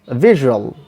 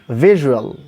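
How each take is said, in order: No difference in how they are said.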